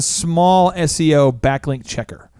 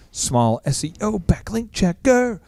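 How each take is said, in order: First: Said in the usual way. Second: Slow, hammed-up drawl with "checker" stretched; drawn-out silly voice. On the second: Repeating the site name for fun, slow silly drawl.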